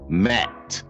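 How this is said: The word ends with a t sound. "they say mat"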